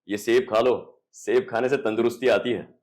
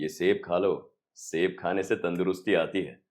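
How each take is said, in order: First: It is said like a hero. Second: It is said like a villain.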